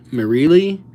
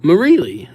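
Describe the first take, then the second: First: "Marielli?" tried out with a rising, questioning tune; unsure question. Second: "Marielli." said firmly with a falling tune; confident statement. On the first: Streamer unsure how to pronounce a viewer's name, asking it. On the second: Streamer settling on a viewer's name, firm and final. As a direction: settle on "Marielli." with a decisive fall. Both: Shown as a demonstration. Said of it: "I think".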